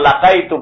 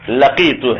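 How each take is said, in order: First: The second vowel is sounded as 'ai'. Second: The second vowel is sounded as 'ee'. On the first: The speaker calls it wrong. "इसको अक्सर तलबा लकाइतु पढ़ते हैं, लकाइतु सही नहीं है" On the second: The speaker calls it right. "ये है लकीतु है।"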